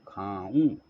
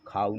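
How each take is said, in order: First: खाऊँ with a nasalised final oo; nasal ending. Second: खाऊँ said as plain khaa-u; quick खाऊँ with an oral ending; wrong, nasal missing. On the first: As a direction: say खाऊँ as khaa-oon. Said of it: "ये चांद बिंदी हमें". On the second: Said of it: "खाऊँ नहीं". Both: Shown as a demonstration.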